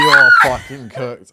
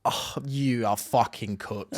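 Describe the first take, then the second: First: Slow, loud, drawn-out verdict; loud exasperation. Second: Slow, drawn-out exasperation; slow disbelief. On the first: Host repeating verdict over co-host's protest, loud exasperation. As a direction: belt it out, stretching each word. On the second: Host dumbfounded by co-host's answer, slow disbelief. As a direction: weigh out each word, aghast. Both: Real, not acted.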